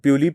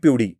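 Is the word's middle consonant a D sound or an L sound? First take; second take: L sound; D sound. First: The middle consonant is a plain L sound. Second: The middle consonant is a D sound. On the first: This is how Konkan speakers say it. "ल उच्चारतात" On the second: This is how Jalgaon speakers say it. "काही ठिकाणी ड उच्चारतात"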